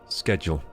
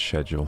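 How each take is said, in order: First: The word begins with an sk sound. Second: The word begins with an sh sound. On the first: The speaker calls it right. "I'm saying it the American way" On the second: The speaker calls it wrong. "the British uh, they decided it's schedule"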